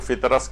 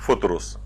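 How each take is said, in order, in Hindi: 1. दोनों स्वर 'u' की आवाज़ नहीं हैं। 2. दोनों अक्षरों में 'u' स्वर की आवाज़ है। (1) "बहुत से लोग इसको फितरस कहते" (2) "फे के ऊपर भी पेश है और रे के ऊपर भी पेश है"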